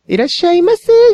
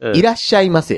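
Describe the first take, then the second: First: It is said in an affected, stylized shop-clerk voice. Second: It is said in a plain, natural speaking voice. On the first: The speaker calls it wrong. "いらっしゃいませーみたいなやつ" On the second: The speaker calls it right. "普通に喋れって言って"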